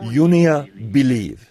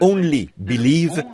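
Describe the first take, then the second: First: The first word begins with a 'yo' sound. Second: The first word begins with an 'oh' sound. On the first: The speaker calls it wrong. "ils disaient « Yonea Believe »" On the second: The speaker calls it right. "au lieu de prononcer « Only Believe »"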